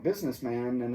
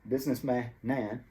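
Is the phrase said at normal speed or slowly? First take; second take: normal speed; slowly. First: It is said quickly and smoothly at normal speed. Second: It is said slowly with each linked sound drawn out. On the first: "when you do it at normal speed" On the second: "kind of slow it down"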